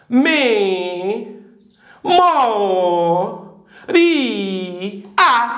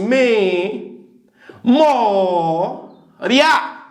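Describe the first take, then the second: First: The word is split into four syllables. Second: The word is split into three syllables. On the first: The ending is read as two separate vowels. "Agora ela tem quatro sílabas" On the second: The ending is read as one diphthong. "Três sílabas"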